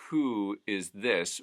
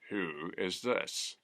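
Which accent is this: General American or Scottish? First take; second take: General American; Scottish. First: It has a General American oo vowel. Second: It has a Scottish fronted u vowel. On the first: "if we have the oo sound" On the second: "would become"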